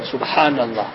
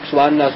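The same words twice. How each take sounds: First: The word is said slowly and calmly. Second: The word is said fast and rushed. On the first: The words are said with thought and concentration. The speaker calls it right. "don't be in a hurry when we read the tasbih just to finish" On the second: The words are said just to finish. The speaker calls it wrong. "Otherwise we read it quickly"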